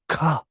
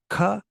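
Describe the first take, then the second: First: The consonant is released with a strong puff. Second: The consonant is released with little breath. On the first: "but ka is ka" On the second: "Ka is not that much air"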